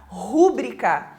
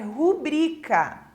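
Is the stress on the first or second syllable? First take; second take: first; second. First: The stress is on the first syllable. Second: The stress is on the second syllable. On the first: The speaker calls it wrong. "como se tivesse um acento agudo ali nesse U" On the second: The speaker calls it right. "A pronúncia correta da palavra é rubrica"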